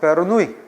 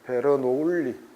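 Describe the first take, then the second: First: It is said the native way, like 'Ber-nu-i'. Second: It is said the German way, like 'Ber-no-ul-li'. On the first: This is how the name is really said. "본토 발음 베르누이" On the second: This helps in remembering the spelling. "스펠링 외울 때는 독일식 발음이 제일 좋아요"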